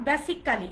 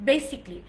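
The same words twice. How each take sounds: First: "basically" with a full "kaa-lee" ending; Bangla-style "basically", four full syllables; wrong pronunciation. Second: "basically" as BAY-sik-lee; "basically" squeezed to basic-lee; corrected pronunciation. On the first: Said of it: "not basically". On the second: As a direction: say basically in three syllables, no "kaa". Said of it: "it's basically". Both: Shown as a demonstration.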